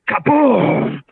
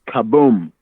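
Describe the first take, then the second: First: It is screamed loudly. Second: It is said calmly, without screaming.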